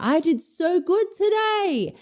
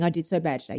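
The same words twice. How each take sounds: First: High, slow sing-out of pride; proud boasting. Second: Low, soft confession; mock dejection. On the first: Acted. Dieter coming home after a good day, high delighted boast. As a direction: crow it high, stretching the words. Acted proud homecoming report. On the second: Dieter who nobody hears coming home, low mock-glum admission. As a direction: drop it down, downcast. Acted homecoming report, against good version.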